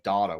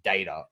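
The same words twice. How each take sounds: First: It is said the local, non-American way. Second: It is said the American way. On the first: "the way we're meant to say it" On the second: "I always say data"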